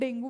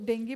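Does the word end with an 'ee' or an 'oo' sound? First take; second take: oo; ee. First: The word ends with an 'oo' sound. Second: The word ends with an 'ee' sound. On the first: "normal terms में हम डेंगू बोलते हैं" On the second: "डेंगी pronounce करते हैं"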